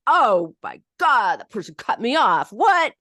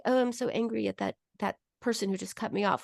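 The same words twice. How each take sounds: First: Anger let out. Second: Said in the usual way. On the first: Shown as a demonstration. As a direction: explode at the driver who cut in. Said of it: "We let that, that, that affect out". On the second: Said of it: "But we never go like".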